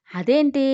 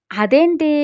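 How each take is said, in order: First: "అదేంటి" asked lightly, only a little raised; a gentle curious "అదేంటి", no real shock; mild puzzlement. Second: High, loud shocked exclamation on "అదేంటి". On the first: Grandmother asking about the girl, mildly puzzled. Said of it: "అని అడిగింది Rukmini". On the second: Ritika reacting to Dev's claim, loud shock. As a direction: blurt "అదేంటి" in sharp disbelief, pitched up. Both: Acted.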